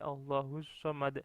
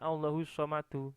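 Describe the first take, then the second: First: The last word stops on the final consonant. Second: The last word ends with a final vowel. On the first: The speaker calls it right. "tapi Allahus somad" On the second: The speaker calls it wrong. "Jadi bukan Allahus somadu"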